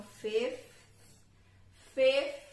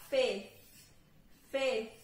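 First: "fifth" with the F in the middle clearly said; full fifth. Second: "fifth" with the middle F dropped, as "fith"; reduced fifth. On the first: Teacher shows learners the full form. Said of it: "com o som do F que tem no meio". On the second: Teacher shows learners the reduced form. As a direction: drop the F in "fifth". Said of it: "tirar o som do F". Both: Shown as a demonstration.

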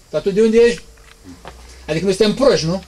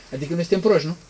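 First: A hint of a sneering bystander, louder; lightly voiced scornful doubter; mocking scoffer. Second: Said in the usual way. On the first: Preacher mimics mockers doubting Jesus, mild sneering voice.

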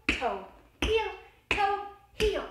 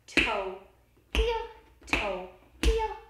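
Both takes have the same delivery.

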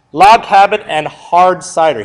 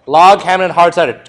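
First: "Log cabin and hard cider" said slowly, each word laid down; slow emphatic repeat. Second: Said in the usual way. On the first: Shown as a demonstration. Teacher repeats the test slogan for students, slowly. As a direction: spell the slogan out slowly so it sticks. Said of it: "know that log cabin and hard cider stuff".

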